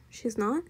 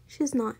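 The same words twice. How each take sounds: First: "She's not" with a rising end; questioning. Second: "she's not" with a falling end; firm statement. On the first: Mr Watson doubts Baby, "She's not" rising as a question. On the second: Baby confirms it to Mr Watson, "she's not" falling. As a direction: state "she's not" as settled, tune going down. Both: A narrator's reading.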